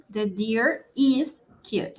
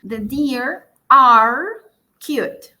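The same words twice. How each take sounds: First: "is" stressed, the whole line slow; slow it down and land on "is" for the singular. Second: "are" said slow and louder, the rest plain; stress on are. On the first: Teacher contrasting the singular form for the class, slow with "is" stressed. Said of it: "Si estoy hablando en singular". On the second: Teacher showing students the plural verb, slow with "are" stressed. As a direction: lean hard on "are" to show it is plural. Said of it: "como yo digo are". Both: Shown as a demonstration.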